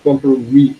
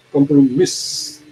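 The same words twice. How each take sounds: First: Compromise said French-style, ending on "mee"; silent S. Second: Compromise ending in an audible S; wrong pronunciation. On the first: Teacher modelling the French term, compromise with silent final S. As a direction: leave the S off compromise, ending in an ee sound. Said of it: "S sound is silent here". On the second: Teacher showing law students the mistake, compromise with a hissed final S. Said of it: "We do not pronounce as compromise". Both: Shown as a demonstration.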